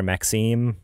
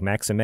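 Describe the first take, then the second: First: "Maxime" as mak-SEEM; two-syllable pronunciation. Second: "Maxime" as MAX-ih-may; three-syllable pronunciation. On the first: Host offering the other way to say the name, "Maxime" ending in "seem". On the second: Host unsure how to pronounce the director's name, "Maxime" ending in "may". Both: Shown as a demonstration. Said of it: "I don't know if it's like".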